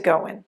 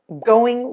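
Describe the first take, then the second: First: The ending is reduced to an 'in' sound. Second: The ending is a full 'ing' sound.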